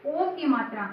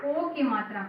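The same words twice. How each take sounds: The two takes are said the same way.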